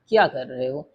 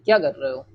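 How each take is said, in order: First: It is said in a calm, neutral tone. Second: It is said in a sharp, scolding tone. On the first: "normally भी कह सकते हैं" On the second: "डांट कर भी पूछ सकते हैं"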